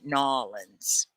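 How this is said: The name is squeezed into two short syllables. This is how local people say it. "the people down in in Louisiana call it Nolans"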